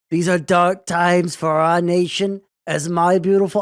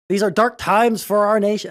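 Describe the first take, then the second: First: Louder, slow, failing Trump impression; a bad Trump that drifts toward Kennedy; attempted Trump voice. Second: Said in the usual way. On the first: Shown as a demonstration. Streamer trying a Trump voice for chat, slow and louder. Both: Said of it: "should I do it in his voice".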